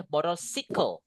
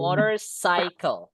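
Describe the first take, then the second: First: "motorcycle" ending in "si-kol"; "motorcycle" mispronounced as "moder-si-kol"; wrong motorcycle. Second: "motorcycle" ending in "sai-kol"; "motorcycle" as American "moder-sai-kol"; correct motorcycle. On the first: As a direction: say "motorcycle" with a short i, like in bicycle. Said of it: "Nggak boleh motorcycle". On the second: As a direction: say "motorcycle" with a long I in cycle. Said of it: "motor sini baru cycle". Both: Shown as a demonstration.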